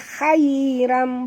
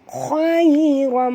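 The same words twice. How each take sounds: First: The first syllable sounds light, like hai. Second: The first syllable sounds heavy, like khoi. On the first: The speaker calls it wrong. "Jangan baca khairam, bukan hai" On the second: The speaker calls it right. "bunyi dia khoi"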